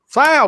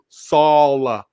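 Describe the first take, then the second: First: The vowel is short, as in 'pal'. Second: The vowel is long, as in 'all'. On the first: This is how others mispronounce the name. The speaker calls it wrong. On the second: This is the name as its owner says it. The speaker calls it right. "dude, Saul. It's not that hard"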